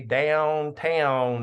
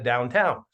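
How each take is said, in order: First: It is said in a Southern US accent. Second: It is said in a Northern US accent. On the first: This is how the speaker used to say it. "why do I say downtown" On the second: This is how the other kids said it. "instead of downtown"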